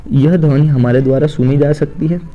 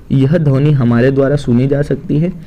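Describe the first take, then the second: Both takes have the same delivery.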